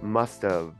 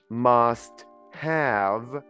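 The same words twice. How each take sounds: First: The word have is reduced to a short of. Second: The word have is said fully and separately. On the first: The speaker calls it right. "it sounds only of, like OV" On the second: The speaker calls it wrong. "I don't say must have"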